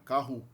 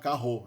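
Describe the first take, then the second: First: The final vowel sounds like u. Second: The final vowel sounds like o. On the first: The speaker calls it right. "é carro" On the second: The speaker calls it wrong. "a vogal final não é O nunca, não tem como a gente falar carro"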